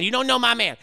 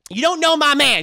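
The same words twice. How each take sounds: First: Said in the usual way. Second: High, loud repeat of the retort; mock indignant. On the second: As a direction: shout it again.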